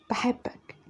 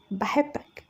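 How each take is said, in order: First: Whispered I love you, almost no voice; barely audible confession. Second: Soft voiced repeat of بحبك, rising at the end. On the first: Acted. Girl whispering her love to Fahd, voiceless whisper. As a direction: breathe it out so he barely hears. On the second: Repeating her confession when he asks, soft and shy. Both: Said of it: "قلت إيه؟".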